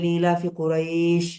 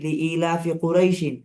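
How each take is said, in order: First: The last word ends bare on the 'sh' sound. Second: The last word ends with an added '-in' sound. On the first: The reciter stops after this word. "থামলে" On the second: The reciter continues without stopping. "আপনি যদি না থামেন"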